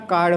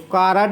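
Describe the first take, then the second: First: The r joins the d with no vowel between. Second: An extra vowel is inserted between r and d. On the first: The speaker calls it right. "कार्ड होता है" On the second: The speaker calls it wrong. "कार्ड नहीं होता"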